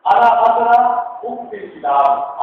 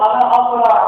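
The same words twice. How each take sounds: First: اقرا with a clean hamza glottal start, then فی الکتاب slow; correct hamza. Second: اقرا begun with a throaty ع instead of hamza; wrong ain. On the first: Teacher to students, models correct hamza in اقرا. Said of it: "جیسے میں کہتا ہوں". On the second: Teacher to students, demonstrates the wrong ع in اقرا. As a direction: mispronounce اقرا with ع on purpose. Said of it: "حمزہ کو عین پڑھ دیا". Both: Shown as a demonstration.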